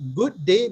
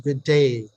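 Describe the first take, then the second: First: It is said in a non-Australian accent. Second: It is said in an Australian accent.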